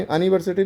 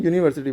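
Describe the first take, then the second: First: अनिवर्सिटी with a short "uh" start; the wrong short start; wrong anniversity. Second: यूनिवर्सिटी with a clear "yoo" start; the right yoo start; correct university. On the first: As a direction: say अनिवर्सिटी as "uh-niversity". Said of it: "अनिवर्सिटी नहीं". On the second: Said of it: "यूनिवर्सिटी पढ़ना है". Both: Shown as a demonstration.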